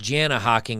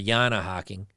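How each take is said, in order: First: The name begins with a J sound. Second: The name begins with a Y sound. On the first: The speaker calls it wrong. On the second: The speaker calls it right.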